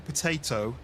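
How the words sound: It is said in a British accent.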